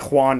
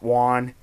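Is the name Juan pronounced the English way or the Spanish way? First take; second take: Spanish; English. First: The name is pronounced the Spanish way. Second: The name is pronounced the English way. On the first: The speaker calls it right. "his name is like Spanish, so I say Juan" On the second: The speaker calls it wrong. "not Juan"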